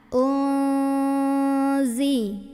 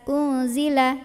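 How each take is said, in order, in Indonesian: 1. Dengung nasal ditahan selama dua ketukan. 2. Dengung nasal dipotong pendek. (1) "tahan. ... Kurang lebih dengungnya dua harokat" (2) "nggak cuman sekedar uzila"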